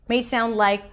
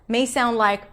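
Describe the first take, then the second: The two takes are said the same way.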